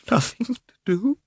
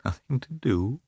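First: "Nothing to do?" much higher, breaking into a cry; tearful cry. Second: "Nothing to do?" muttered softer, a higher disbelieving rise; tearful mutter. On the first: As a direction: throw "Nothing to do?" up high in anguish. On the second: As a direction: softly echo "Nothing to do?" near tears. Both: A narrator's reading. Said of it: "she muttered, with tears in her eyes".

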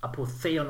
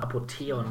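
First: Apotheon with a ts sound for the th; ts pronunciation. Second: Apotheon with a plain t for the th; hard t pronunciation. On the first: Offering listeners one option, Apotheon said with ts. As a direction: say Apotheon as "Apo-tse-on". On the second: Offering listeners the other option, Apotheon said with hard t. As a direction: say Apotheon as "Apo-te-on". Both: Shown as a demonstration. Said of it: "wie man auch ihn immer aussprechen mag".

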